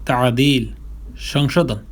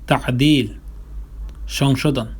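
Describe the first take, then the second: No difference in how they are said.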